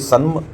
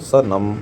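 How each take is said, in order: First: 'San' is joined and the final 'm' stands apart. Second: The first sound stands apart; 'nam' is joined. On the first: The speaker calls it wrong. "ऐसे तो करता नहीं उच्चारण" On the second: The speaker calls it right. "स को अलग हम उच्चारण कर रहे हैं लेकिन नम को एक साथ"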